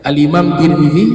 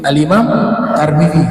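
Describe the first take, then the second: First: The name is said with i and i vowels. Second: The name is said with a and i vowels. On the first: "Kamu sebut Tirmidzi itu betul" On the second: "bahkan Tarmizi juga betul"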